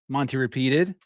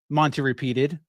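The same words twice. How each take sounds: Both takes have the same delivery.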